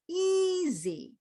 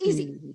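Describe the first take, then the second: First: The first syllable is stretched out and long. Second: The first syllable is short and not stretched. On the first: The speaker calls it right. "the first syllable is longer" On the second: The speaker calls it wrong. "It's not just easy"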